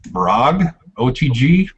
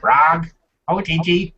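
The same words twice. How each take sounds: First: It is said in the speaker's normal voice. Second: It is said in a put-on character voice. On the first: The speaker calls it wrong. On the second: The speaker calls it right.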